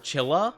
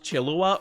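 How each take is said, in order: First: It is said with two syllables, chill-ah. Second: It is said with three syllables, chill-oo-ah. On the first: This is how the spelling suggests it is said. "it looks like it would be say said Chilla" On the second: This is how many people say it. "I've heard a lot of people pronounce it Chillua, like like Killua from Hunter x Hunter, but chill"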